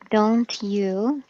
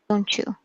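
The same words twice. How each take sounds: First: The t and y sounds stay separate. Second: The t and y merge into a ch sound.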